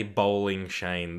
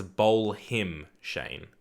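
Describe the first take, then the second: First: "bowling Shane" said slowly as the wrong form; slow, careful "bowling Shane"; wrong version. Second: "bowl him Shane" said slowly with him clearly spoken; corrected version. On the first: Streamer shows chat the wrong phrase, slowly. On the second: Streamer corrects chat, slowly spelling out the phrase. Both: Shown as a demonstration. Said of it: "it's not bowling Shane".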